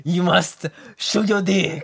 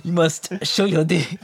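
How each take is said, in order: First: Slower, creaky mock accent; gremlin-like mock French. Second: Mock French that slides into Italian; botched French accent, sounds Italian. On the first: Teasing a friend with a gremlin-like French voice. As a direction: squeeze it out like a gremlin. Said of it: "like a gremlin". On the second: Mocking the Bloc leader in a bad French accent. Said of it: "Why are you doing the Italian thing?".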